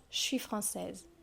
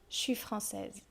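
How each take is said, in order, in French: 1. La voyelle de je est supprimée. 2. La voyelle de je est supprimée.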